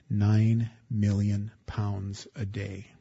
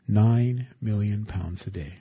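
First: Nine stressed, slow and soft; hushed, weighty "Nine million pounds"; slow emphatic. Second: "Nine" stressed, falling to a close; emphatic repeat of "Nine million"; repeated for emphasis. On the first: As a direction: lean on "Nine" and let it sink in. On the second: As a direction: repeat it firmly, slowing down. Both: Shown as a demonstration.

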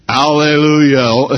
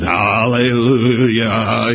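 First: "Hallelujah" called out loud and slow, rising at the end; proclaimed hallelujah. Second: "hallelujah" half sung, slow and loud, rising. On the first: Preacher evoking heaven's crowd, loud rising "Hallelujah". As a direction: ring out "Hallelujah" like a praising crowd. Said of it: "Heaven now is rumbling with hallelujah". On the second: Preacher singing out heaven's praise, slow rumbling "hallelujah". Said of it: "rumbling with hallelujah". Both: Shown as a demonstration.

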